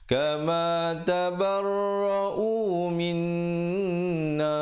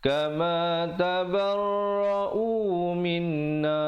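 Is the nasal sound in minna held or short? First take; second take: held; short. First: The nasal before na is held with a hum. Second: The nasal before na is short, with no hum. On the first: The speaker calls it right. "Yang betulnya kama tabarra'u minna baru masuk na" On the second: The speaker calls it wrong. "jangan baca kama tabarra'u minna, itu tak betul"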